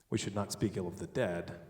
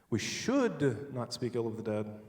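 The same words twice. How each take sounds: First: The word 'dead' is stressed. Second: The word 'should' is stressed. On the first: Bad things may be said about the living. "The living, we should speak ill of" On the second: It is wrong, but it will be done anyway. "but we're going to anyway"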